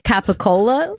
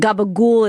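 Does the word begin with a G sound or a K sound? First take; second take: K sound; G sound. First: The word begins with a K sound. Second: The word begins with a G sound. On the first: This is how it is said in Italy. "that's how they would say it in Italy" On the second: This is a local accented version of the name. "they switch the G sounds"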